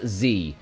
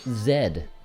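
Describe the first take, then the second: First: The letter is said the American way, 'zee'. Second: The letter is said the British way, 'zed'.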